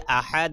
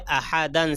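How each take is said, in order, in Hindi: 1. यह शब्द '-an' अंत के बिना अचानक रुक जाता है। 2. यह शब्द पूरे '-an' अंत के साथ समाप्त होता है। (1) "सांस तोड़ेंगे तो क्या पढ़ेंगे" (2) "दो जबर पर वक्फ करना हो"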